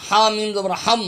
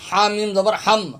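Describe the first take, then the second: No difference in how they are said.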